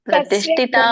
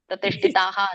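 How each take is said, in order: First: The word ends on a plain long vowel. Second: The word ends with an added breathy h. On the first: The speaker calls it right. "ಅಷ್ಟೇ" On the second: The speaker calls it wrong. "ಯಾಕೆ ನೀವೇ ಪಾಣಿನಿ ಶಾಸ್ತ್ರ ಬರ್ದ್ಬಿಟ್ರಾ"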